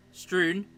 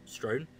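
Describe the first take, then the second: First: STREWN, oo vowel, pitched up. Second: STROWN, the vowel of "stone"; STROWN with a long o. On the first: Game master correcting a fumbled word, higher STREWN with oo. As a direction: say STREWN to rhyme with moon. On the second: Game master fumbling a word, STROWN with long o. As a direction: say STROWN to rhyme with grown. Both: Real, not acted. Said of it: "Words are hard".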